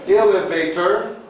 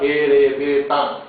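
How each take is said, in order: First: It is said with English pronunciation. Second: It is said with Japanese pronunciation.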